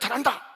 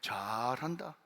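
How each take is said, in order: First: It is said in a sincere, admiring tone. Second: It is said in a scornful, mocking tone. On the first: The person is genuinely praised for changing. "깜짝 놀라가지고 완전 변해서 새 사람 됐네, 정말 잘한다" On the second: The person is ridiculed with ironic praise. "똑같이 잘한다인데 잘한다, 저것도 예수 믿는 사람이라고"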